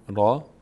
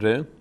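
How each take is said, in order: First: The name ends in a long 'ah' vowel. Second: The name ends in a short 'eh' vowel. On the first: This is the Arabic name of the letter. "در عربی را تلفظ میشه" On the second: This is the Persian name of the letter. "ما در فارسی بهش میگیم ر"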